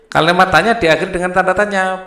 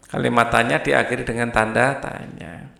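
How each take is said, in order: First: The rule called out loud and fast; teacher stressing the rule, louder and quicker; emphatic rule. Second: Said in the usual way. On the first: Shown as a demonstration. Teacher drilling the class on the rule, loud and fast.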